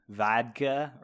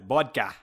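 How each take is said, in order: First: It is said without a Filipino accent. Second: It is said in a common Filipino accent. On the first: "instead of pronouncing it vodka" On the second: "you pronounce it vodka"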